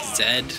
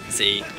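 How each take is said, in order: First: The letter is pronounced as zed. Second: The letter is pronounced as zee. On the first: The speaker calls it wrong. "even though we say Zed" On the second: The speaker calls it right. "I should say Z"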